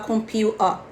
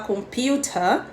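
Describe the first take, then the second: First: The T in the middle is dropped. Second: The T in the middle is clearly pronounced. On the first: "ele vai falar computer" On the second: "que é a pronúncia britânica"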